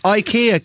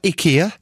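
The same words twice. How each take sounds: First: The word begins with an 'eye' sound. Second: The word begins with an 'ee' sound. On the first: The speaker calls it right. "It's IKEA, clearly. It's been that for years" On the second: The speaker calls it wrong. "That's not how you say it. It's not IKEA. No one says that"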